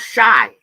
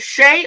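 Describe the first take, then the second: First: The vowel sounds like 'eye' in 'my'. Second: The vowel sounds like 'ay' in 'day'. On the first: The speaker calls it wrong. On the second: The speaker calls it right.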